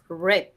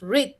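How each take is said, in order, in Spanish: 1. La vocal es corta, como 'red'. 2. La vocal es larga, como 'reed'. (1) "en pasado tú dices read" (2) "En presente tú dices read"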